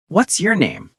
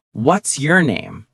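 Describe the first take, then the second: First: Higher-pitched, friendly question falling at the end; friendly and curious. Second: Said in the usual way. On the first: Shown as a demonstration. Teacher models asking someone's name, friendly and curious. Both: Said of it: "Make it sound friendly and curious".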